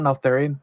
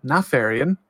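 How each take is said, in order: First: "Neltharion" with an L and a TH in the middle; mispronounced Neltharion. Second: "Natharion" with an F sound, like ne-FAIR-ian; corrected to Nefarian. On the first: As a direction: say "Neltharion" with th, as the slip. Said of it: "Always do that". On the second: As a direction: say "Natharion" with f in place of th. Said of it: "Not Neltharion". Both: Shown as a demonstration.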